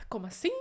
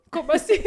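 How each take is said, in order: First: Said in the usual way. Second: Higher and louder stunned question; stunned disbelief. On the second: Retold or imitated. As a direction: blurt it out in shock. Husband's stunned reaction.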